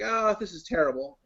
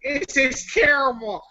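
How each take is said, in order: First: Said in the usual way. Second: High, drawn-out character voice; loud, slow, hammed-up review verdict; Popcorn King. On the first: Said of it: "I could do a Todd review". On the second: Shown as a demonstration. Joking movie review in someone else's voice, high and hammed-up. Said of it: "do it as a Popcorn King voice".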